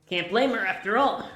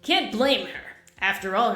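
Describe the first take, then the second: First: It runs on with no pause before 'after all'. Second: It has a pause before 'after all'. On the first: The speaker calls it wrong. "The inflection I attempted at first was really horrible" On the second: The speaker calls it right. "I needed to take two"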